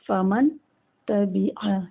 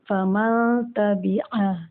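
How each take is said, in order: First: The two words are said separately with a break. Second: The words run together with a nasalized n. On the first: "अलग अलग पढ़ा हमने" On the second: "नून पे गुन्ना करेंगे"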